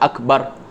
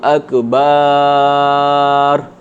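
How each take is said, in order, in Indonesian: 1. Vokal setelah b dibuat pendek. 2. Vokal setelah b dipanjangkan.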